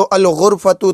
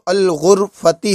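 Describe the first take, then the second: First: गुरफतु ending in a short "u" sound; original ending, -u. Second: गुरफती ending in an "i" sound; changed ending, -i. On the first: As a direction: say गुरफतु with a final u vowel. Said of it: "था वो अल गुरफती हो गया". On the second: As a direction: say गुरफती with a final i vowel. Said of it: "वो अल गुरफती हो गया". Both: Shown as a demonstration.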